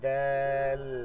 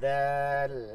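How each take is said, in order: First: The vowel is stretched out a little. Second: The same.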